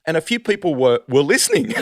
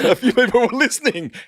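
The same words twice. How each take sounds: First: Said in the usual way. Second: Higher, louder, laughing through the line. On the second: Real, not acted. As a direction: crack up while repeating the punchline. Laughing repeat of punchline.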